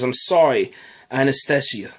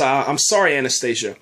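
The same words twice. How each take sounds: First: It is said in a put-on Russian accent. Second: It is said in the speaker's ordinary accent.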